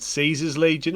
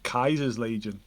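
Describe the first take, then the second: First: The name begins with an S sound. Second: The name begins with a K sound. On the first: "is it Caesar's Legion" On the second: "or is it Kaiser's Legion?"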